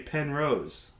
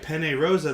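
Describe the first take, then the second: First: Both words end with a consonant sound. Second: Both words end with a vowel sound. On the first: The speaker calls it wrong. "They say pen rose" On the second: The speaker calls it right. "they don't know how to say penne rosa"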